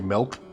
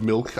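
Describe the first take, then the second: First: The word has a Midwestern regional pronunciation. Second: The word has a general non-regional pronunciation. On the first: "a very Midwestern thing. You'll hear people say milk" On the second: "instead of milk"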